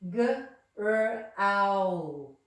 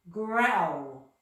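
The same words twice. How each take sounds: First: The word is broken into separate sounds. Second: The sounds are blended into one smooth word.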